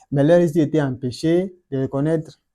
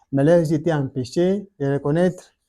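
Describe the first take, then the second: No difference in how they are said.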